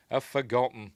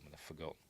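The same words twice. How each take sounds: First: "I've forgotten" said again, higher and louder; emphatic repeat. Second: Said in the usual way. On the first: Real, not acted.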